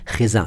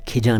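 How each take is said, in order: First: ख़िज़ां with a buzzing z and throaty kh; correct z sound. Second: खिजा said with a plain j in place of z; wrong j sound. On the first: Teacher correcting the word for autumn, clear z in ख़िज़ां. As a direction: say ख़िज़ां with z, not j. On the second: Teacher showing Hindi learners the mistake, mispronounced j in खिजा. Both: Shown as a demonstration. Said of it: "खिजा नहीं".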